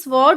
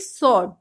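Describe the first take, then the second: First: A w sound follows the s. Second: No w sound follows the s. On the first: The speaker calls it wrong. "इसमें हम स्वॉर्ड नहीं बोलेंगे" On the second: The speaker calls it right. "हम बोलेंगे सॉर्ड"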